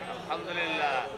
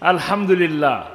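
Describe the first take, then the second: First: It is said more softly. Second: It is said more loudly.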